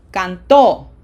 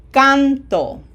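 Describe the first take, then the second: First: CanTO, loud final syllable; stress on last syllable. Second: CANto, first syllable high and loud; stress on first syllable. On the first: Teacher contrasts for learners, canto stressed on TO. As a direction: keep "can" light and punch TO in canto. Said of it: "the other way would be". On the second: Teacher asks learners to hear it, canto stressed on CAN. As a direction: punch CAN in canto, let the ending fall. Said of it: "Do you hear it?". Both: Shown as a demonstration.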